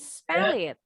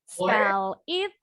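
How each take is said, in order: First: The two words are linked together smoothly. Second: The two words are said separately. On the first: "jadi spell it" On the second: "Bacanya disambung ya"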